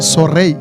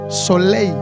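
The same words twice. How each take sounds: First: The word is said with a Rwandan-accented consonant. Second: The word is said in standard French pronunciation. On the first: "C'est soleil" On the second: "Il ne peut, peut pas te dire soleil"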